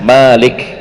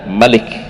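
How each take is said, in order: First: The first vowel is long. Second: The first vowel is short. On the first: "Kalau surah Al-Fatihah" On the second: "Mimnya dibaca pendek ya"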